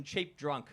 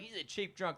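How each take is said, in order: First: Said in the usual way. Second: Put-on "cheap" leaned on a little harder than "drunk"; light mock emphasis on "cheap"; stress on cheap. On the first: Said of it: "I always like that expression". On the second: Shown as a demonstration. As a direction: punch the word "cheap" in "cheap drunk". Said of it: "They always emphasize the word cheap".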